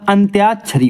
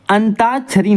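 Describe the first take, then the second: First: अंत्याक्षरी with a y glide, "ant-yaak-shari"; correct pronunciation. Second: अंताक्षरी with no y, "an-taak-shari"; higher अंताक्षरी, plain t before the long aa; wrong pronunciation. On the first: Teacher correcting students, "tyaa" clearly heard in अंत्याक्षरी. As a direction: sound the y after t in अंत्याक्षरी. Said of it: "अंत्याक्षरी होता है". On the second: Teacher showing the mistake, y-less "antaakshari" for अंताक्षरी. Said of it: "अंताक्षरी नहीं होता". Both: Shown as a demonstration.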